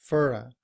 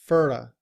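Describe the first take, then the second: Both takes have the same delivery.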